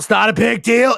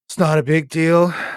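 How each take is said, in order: First: It is yelled loudly. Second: It is said fairly quietly.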